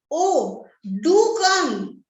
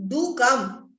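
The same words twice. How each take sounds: First: Pleading "do come" with "do" stressed hard. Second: "do" leaned on lightly, falling; a gentle pleading "do come"; mild stress on do. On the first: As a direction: hit the word "do" hard, persuading. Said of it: "I repeat the sentence again". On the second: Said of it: "do is strongly stressed". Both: Shown as a demonstration.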